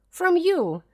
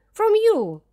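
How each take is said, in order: First: Higher, louder cry of refusal; raised plea. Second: Much higher, louder shout. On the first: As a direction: push her away with a raised voice. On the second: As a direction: scream it at her. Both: A narrator's reading. Flora rejects governess.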